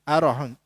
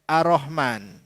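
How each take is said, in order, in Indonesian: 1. Bunyi r pendek dan tunggal. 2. Bunyi r ditahan dan digandakan. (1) "tak ada tasydid" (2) "perkataan Ar-Rahman dibaca Ar-Rahman"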